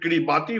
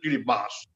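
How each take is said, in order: First: The name is sounded out just as spelled. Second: The name is said differently from its spelling. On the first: The speaker calls it wrong. "People call it Kiribati, which is wrong" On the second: The speaker calls it right. "but pronounced as Kiribati"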